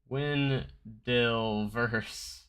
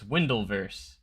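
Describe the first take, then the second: First: It starts with 'win' followed by a separate 'del'. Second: It starts with the sound of 'Wendell'. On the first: The speaker calls it wrong. "that's definitely not how you say it" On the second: The speaker calls it right. "Like my like my last name, Wendell"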